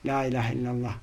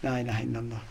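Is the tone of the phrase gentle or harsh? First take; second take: gentle; gentle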